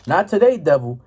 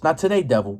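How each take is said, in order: First: Defiant rebuke. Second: Settled, easy "Not today, devil" in normal pitch; calm dismissal. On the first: Preacher voicing Christians rebuking the devil, defiant. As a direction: tell the devil no with bold confidence. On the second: Preacher voicing Christians, calmly dismissing the devil. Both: Retold or imitated. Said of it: "the Christians be like".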